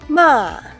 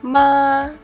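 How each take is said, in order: First: The pitch falls sharply from high. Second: The pitch stays high and level. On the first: "the fourth tone" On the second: "pronounce the first tone to help us define the fourth tone"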